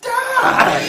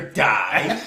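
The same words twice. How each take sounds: First: The word is said with strong, heavy emphasis. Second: The word is said plainly, without extra emphasis. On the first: Dying in a far more extreme way. "really die" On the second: Simply dying. "you die"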